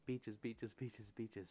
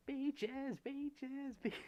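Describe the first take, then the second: First: Said in the usual way. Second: Squealing falsetto, much higher and louder. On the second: Pretend. Streamer answering a viewer's request in a squealing falsetto. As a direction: belt the word beaches like a rock singer squeaking.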